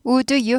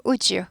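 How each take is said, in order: First: "would you" as two words, hard d then you; "would you" without any j sound; unblended would you. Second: "would you" blended into wu-jyu; "would you" run together as woo-joo; softened would you. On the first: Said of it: "would you 하지 않고". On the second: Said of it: "부드럽게 발음되죠". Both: Shown as a demonstration.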